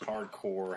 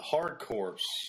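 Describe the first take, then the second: First: The second word ends with no 'ps' sound. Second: The second word ends with a 'ps' sound. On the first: The speaker calls it right. "I say core" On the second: The speaker calls it wrong. "people say it's corpse"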